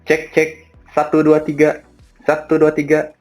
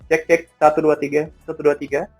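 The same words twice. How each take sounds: First: The voice sounds louder and clearer. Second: The voice sounds quieter and less clear. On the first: The speaker calls it right. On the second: The speaker calls it wrong.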